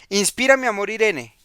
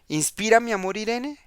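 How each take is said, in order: First: It is read as a statement, falling. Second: It is read as a question, rising.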